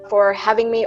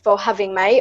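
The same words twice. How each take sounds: First: It is spoken in an American English accent. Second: It is spoken in a British English accent. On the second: "starting with the British accent"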